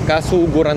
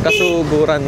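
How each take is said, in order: First: The second syllable has the vowel 'u'. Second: The same.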